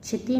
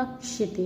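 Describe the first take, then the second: First: क्षिति as "chhiti"; mispronounced. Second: Said in the usual way. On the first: Shown as a demonstration. Teacher showing students an error, क्षिति mispronounced "chhiti". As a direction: say क्षिति with chh for ksh. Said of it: "नहीं होता". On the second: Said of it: "होता है".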